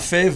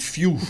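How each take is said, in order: First: The name is read with a French 'fève' sound. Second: The name is said the English way, like 'fiou'. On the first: The speaker calls it wrong. "ne dites pas fève" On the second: The speaker calls it right. "mais dites Few"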